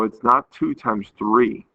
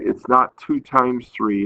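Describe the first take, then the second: First: "not" stretched and leaned on, slower; teacher drawing the contrast on "not"; stress on not. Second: Teacher repeating the point, leaning on "not"; stress on not. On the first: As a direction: lean hard on "not", slow the line. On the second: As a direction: hit "not" slowly and firmly. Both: Shown as a demonstration.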